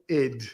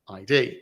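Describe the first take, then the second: First: It is said as one short word. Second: It is said as two separate letter names. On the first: The speaker calls it right. "Id, as in ego" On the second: The speaker calls it wrong. "we in the Queen's English will normally pronounce that as I D"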